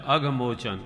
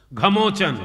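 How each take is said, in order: First: अघमोचन said in full with the opening अ, low and falling; अघमोचन with its first vowel; correct mantra. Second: घमोचन said without the opening अ, higher and louder; clipped घमोचन, first syllable dropped; wrong mantra. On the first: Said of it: "कुछ छूट रहा है". (अघमोचन पूरा उच्चारण) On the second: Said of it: "कुछ छूट रहा है, घमोचन नहीं है". (घमोचन, अ छोड़कर) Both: Acted.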